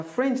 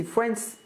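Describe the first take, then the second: First: "French" said with an e, as the language; "French" with a final sh sound; mispronounced France. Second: "France" pitched up as the correction; "France" as the country name, ending -ns; corrected pronunciation. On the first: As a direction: say "French" in place of the country name. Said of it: "C'est pas French". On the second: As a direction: say "France" ending in a clean s sound. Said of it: "c'est France". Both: Shown as a demonstration.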